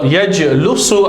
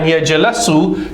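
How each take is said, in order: First: The middle syllable has the vowel u. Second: The middle syllable has the vowel a. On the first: "sound strange" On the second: "sound strange"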